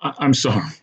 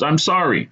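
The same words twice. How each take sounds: First: Higher, halting apology; stuttered apology. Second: High, unbroken plea of apology; repeated apology. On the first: Cop to choked man after release, stuttering. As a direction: stumble on the first word, apologetic. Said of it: "he stuttered". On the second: Cop to choked man, insistently apologising. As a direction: apologise with raised pitch, no stutter. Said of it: "he repeated". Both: A narrator's reading.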